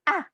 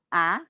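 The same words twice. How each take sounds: First: It is said firmly and decisively, like anger. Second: It is said doubtfully, with hesitation. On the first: The speaker calls it right. "seperti orang marah atau tegas" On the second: The speaker calls it wrong. "tidak boleh ragu-ragu"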